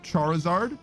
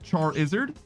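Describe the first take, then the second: First: The ending does not sound like lizard. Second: The ending sounds like the word lizard. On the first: The speaker calls it wrong. "people are like, it's pronounced Charizard" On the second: The speaker calls it right. "it should be pronounced like lizard"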